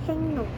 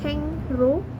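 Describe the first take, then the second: First: The second syllable starts with an n sound. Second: The second syllable starts with an r sound. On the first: This is how the word is actually read. "dibaca jadi hengno" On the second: This is how the word is written. "itu jadi hengro"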